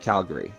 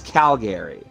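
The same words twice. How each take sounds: First: The word is clipped and shortened. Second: The word is said in full. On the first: "your average Calgarian will go Calgary. ... they won't add the Gary part" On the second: "it's Calgary"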